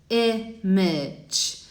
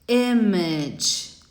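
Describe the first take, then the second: Both takes have the same delivery.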